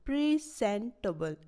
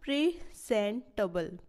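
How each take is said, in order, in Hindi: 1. Stress पहले syllable पर है। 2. स्ट्रेस पहले सिलेबल पर है।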